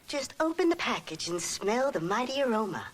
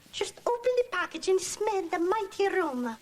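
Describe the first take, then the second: First: It is said with no foreign accent. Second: It is said with a Hispanic accent.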